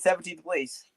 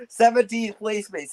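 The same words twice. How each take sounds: First: Said in the usual way. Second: Slow, high mocking jeer; slow gloating jab at a rival's league place; drawn-out taunt. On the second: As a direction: stretch it out to rub it in.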